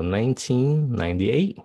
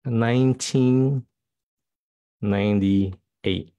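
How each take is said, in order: First: Said in the usual way. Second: Nineteen ninety-eight said slowly, word by word; teacher modeling a year slowly; slow, careful year reading. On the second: Shown as a demonstration. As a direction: spell out the year slowly for learners. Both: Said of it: "Các bạn phát âm năm sao?".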